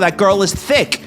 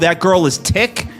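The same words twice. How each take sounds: First: The word begins with a TH sound. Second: The word begins with a plain T sound. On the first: The speaker calls it right. "You say" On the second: The speaker calls it wrong. "No, of course not"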